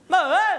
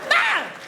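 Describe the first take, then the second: First: It is a plain, ordinary call. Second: It is very short and panicked.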